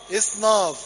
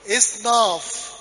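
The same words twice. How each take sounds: First: Said in the usual way. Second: Drawn-out إصناف, each sound spelled out slowly; slow syllable by syllable. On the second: Shown as a demonstration. Teacher spelling a Coptic word to class, slowly drawn out. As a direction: stretch إصناف out so the class can follow. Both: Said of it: "يبقى إيه؟".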